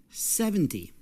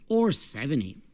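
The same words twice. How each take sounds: First: Seventy said sevenTY, the TY raised high; seventy with a teen-like end stress. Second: Seventy said SEVenty, strong start and a falling end; stress on first syllable. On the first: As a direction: push the weight onto TY in seventy. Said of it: "Listen for the stress". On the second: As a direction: lean on SEV in seventy. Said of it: "the stress is on the first syllable". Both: Shown as a demonstration.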